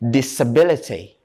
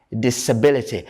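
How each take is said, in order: Both takes have the same delivery.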